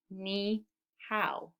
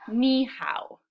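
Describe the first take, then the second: First: "Ni hao" split with a pause after Ni; softer, two separate beats on "Ni hao"; syllable by syllable. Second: Said in the usual way. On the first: Shown as a demonstration. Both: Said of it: "I hear two syllables".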